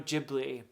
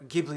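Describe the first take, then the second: First: The word is said with an English-style pronunciation. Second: The word is said with an Italian pronunciation.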